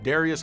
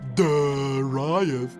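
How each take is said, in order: First: The name is said the ordinary, everyday way. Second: The name is said the fancy, affected way.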